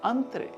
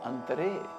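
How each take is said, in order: First: The final vowel is short and reduced. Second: The final vowel is full and clear. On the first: "hypoemphasis phoneme of laugh sign" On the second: "pronounced as standard emphasis phoneme of laugh sign"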